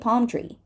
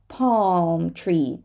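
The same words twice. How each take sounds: First: No L sound is pronounced. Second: A dark L sound is pronounced.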